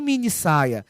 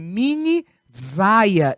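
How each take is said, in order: First: Saia begins with a hissing s sound. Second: Saia begins with a buzzing z sound. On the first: The speaker calls it right. "e não mini saia" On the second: The speaker calls it wrong. "o S entre duas vogais tem som de Z"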